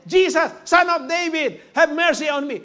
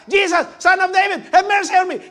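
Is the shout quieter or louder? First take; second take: quieter; louder. First: The shout is quieter and less forceful. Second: The shout is louder and more forceful. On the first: He is calling out for the first time. "Siguro nung una po, ganyan pa lang ang sigaw niya" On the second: He refuses to be silenced after being rebuked. "Pero nung pinagbabawalan siya"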